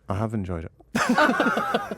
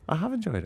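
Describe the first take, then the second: First: It sounds insincere, as if lying. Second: It sounds sincere and genuinely pleased. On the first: The speaker did not really enjoy it. "Here's my face if I was lying" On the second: The speaker truly enjoyed it. "Let's see your genuine face"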